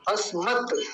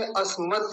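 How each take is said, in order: First: "अस्मत" with a full vowel after त, the mistake to avoid; "अस्मत" said as "अस्मता"; imitating the wrong "अस्मत"; wrong pronunciation. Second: "अस्मत" ending in a bare त with no vowel after it; teacher's correct "अस्मत"; correct halant. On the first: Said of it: "अस्मत नहीं बोलेंगे". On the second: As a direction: cut "अस्मत" off cleanly on the त. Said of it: "तो के नीचे हलंत लगेगा". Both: Shown as a demonstration.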